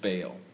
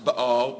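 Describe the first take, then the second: First: The name is said in an anglicized way. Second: The name is said in its original way. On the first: The speaker calls it wrong. "the more familiar English pronunciation of Baal" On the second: The speaker calls it right. "it's more properly pronounced Baal"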